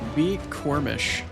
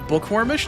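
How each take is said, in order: First: The name begins with a separate 'bee' sound. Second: The name begins with the word 'book'. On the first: The speaker calls it wrong. "that's what my T T S is saying your name is" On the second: The speaker calls it right. "Bookwormish, not B Cormish?"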